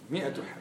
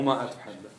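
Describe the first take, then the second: First: The number word begins with a short 'mi' sound. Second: The number word begins with a long 'maa' sound. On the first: The speaker calls it right. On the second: The speaker calls it wrong.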